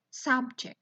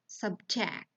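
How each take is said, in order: First: Noun form "subject", SUBject; stress on first syllable. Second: "subject" with the stress on JECT; stress on second syllable. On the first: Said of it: "while for noun is on the first syllable". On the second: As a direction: verb form "subject", subJECT. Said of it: "has stress on the final syllable". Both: Shown as a demonstration.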